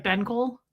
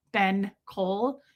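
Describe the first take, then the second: First: "Ben Cole" run together as a single word; "Ben Cole" said as one quick unit; one-worded name. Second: "Ben Cole" slowly, each word apart; slow, separated "Ben Cole"; two separate words. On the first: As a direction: join "Ben Cole" with no gap. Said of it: "it's, like, one word". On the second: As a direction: say "Ben", then "Cole", drawn out. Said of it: "it sounds like one word". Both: Shown as a demonstration.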